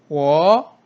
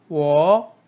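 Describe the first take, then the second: No difference in how they are said.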